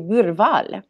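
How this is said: It is said the Swedish way.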